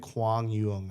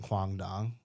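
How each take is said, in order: First: The second word begins with a y sound. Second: The second word begins with a d sound. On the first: The speaker calls it right. "it's like Kwang Yung or something" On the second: The speaker calls it wrong. "That's actually not how you say it"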